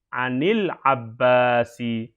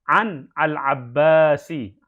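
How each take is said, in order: First: The n takes an i vowel and links forward. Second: The n stops before al-Abbasi with no vowel.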